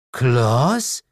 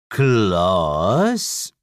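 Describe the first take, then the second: First: High, rising question; puzzled demon mother. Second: Long drawn-out, dipping then rising question; puzzled devil. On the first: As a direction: ask the name in disbelief. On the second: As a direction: stretch the name in slow disbelief. Devil peers at the visitor. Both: Acted.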